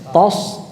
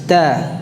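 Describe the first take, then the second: First: The t sound is heavy and thick. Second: The t sound is light and thin. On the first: The speaker calls it wrong. "jangan sampai ikut tebal shadnya ya" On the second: The speaker calls it right. "taknya tipis"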